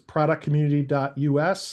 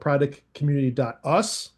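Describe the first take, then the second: First: US is spelled out as two separate letters. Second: US is said as the single word 'us'. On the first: It stands for United States. "like A J said" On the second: It refers to all of us. "I like to call it ... not really United States, it's us"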